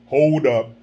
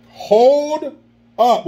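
First: Low, quick "Hold up" like [name]; [name] impression. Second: High, held-out "Hold up"; drawn-out exclaim. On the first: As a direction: drop low and say "Hold up" short. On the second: Shown as a demonstration. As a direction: stretch "Hold" long and high. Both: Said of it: "What would [name] say?".

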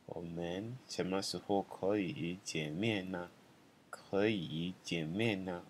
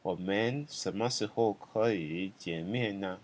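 First: Slow and softer, like a murmured echo; quiet slow second take; soft repeat. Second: Slow, even teaching read; careful slow demo sentence; slow model sentence. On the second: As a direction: say it slowly so students can follow. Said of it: "So 我们什么时候可以见". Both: Shown as a demonstration.

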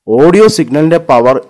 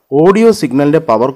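Both takes have the same delivery.

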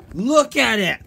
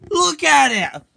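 First: Loud, higher demand; shouted order. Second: Much higher, louder yell; louder shouted order. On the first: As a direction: shout him into looking. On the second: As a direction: really yell it at him. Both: Acted. Forcing friend to watch movie.

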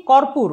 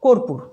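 First: কর্পূর with open "aw" first vowel; as written. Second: কর্পূর with closed "o" first vowel; pronounced with O. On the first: Teacher reading out the spelling, কর্পূর with open aw. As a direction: say কর্পূর as "kawr-pur". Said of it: "লিখি কর্পূর". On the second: Teacher giving the spoken form, কর্পূর with closed o. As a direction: say কর্পূর as "kor-pur". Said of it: "উচ্চারণ করব". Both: Shown as a demonstration.

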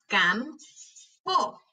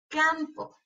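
First: "Campo" slowly as cam, pause, po; broken into syllables. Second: Said in the usual way. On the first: Shown as a demonstration. Teacher helping hear each sound, syllable by syllable. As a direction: break "Campo" in two. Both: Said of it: "quiero que las quiebres entre sílabas".

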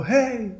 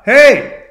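First: High, soft echo of a call; faint high echo; Echo repeating. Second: High loud call, lost and calling; sharp high "hey" shouted into the woods; yelling out. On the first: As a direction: hand the shout back softly, high-pitched. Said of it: "Echo can only repeat what you've said". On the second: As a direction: holler out for anyone there. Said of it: "starts yelling out". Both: Retold or imitated.

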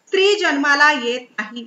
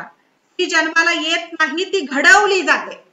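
First: Said in the usual way. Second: "जन्माला" and "घडवली" stressed, slowed right down, louder toward "घडवली जाते"; slow emphatic quote. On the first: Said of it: "quotation आहे, लक्षात ठेवा". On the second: Shown as a demonstration. Speaker to students, quoting Beauvoir: slow emphatic stress on "घडवली". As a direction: spell out the quotation slowly, leaning on "जन्माला" and rising in force on "घडवली". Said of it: "लक्षात ठेवा".

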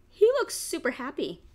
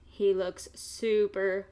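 First: Higher, louder he looks super happy; bright cute voice. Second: Said in the usual way. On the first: Shown as a demonstration. Reading to kids, chirping about the happy piglet.

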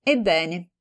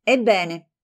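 First: "Ebbene" flat and casual, no heat; offhand "Ebbene". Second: "Ebbene" tight, falling, barely holding fury; livid "Ebbene". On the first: Composed friend answering the tirade, offhand. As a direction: shrug off "Ebbene" carelessly. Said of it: "rispose con trascuranza". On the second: Livid friend starting her furious reply. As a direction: spit out "Ebbene" pale with anger. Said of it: "diventò livida". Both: Acted.

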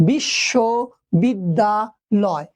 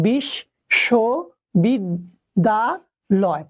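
First: "বিশ্ববিদ্যালয়" slowly in chunks, bissho - bidda - loy; split into chunks. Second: "বিশ্ববিদ্যালয়" very slowly as bish - sho - bid - da - loy; five separate syllables. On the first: Teacher showing students the syllables, "বিশ্ববিদ্যালয়" in slow chunks. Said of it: "পাঁচটি অক্ষরই দৃশ্যমান হচ্ছে". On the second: Teacher counting syllables for students, "বিশ্ববিদ্যালয়" fully separated. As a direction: pause after each of the five syllables in "বিশ্ববিদ্যালয়". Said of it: "পাঁচটি". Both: Shown as a demonstration.

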